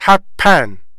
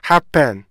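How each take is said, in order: First: The stress falls on the second syllable. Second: The stress falls on the first syllable. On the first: The speaker calls it wrong. "그 부분에 강세가 가죠" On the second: The speaker calls it right. "앞부분에 강세를 주고 뒷부분에 강세를 안 주면은요"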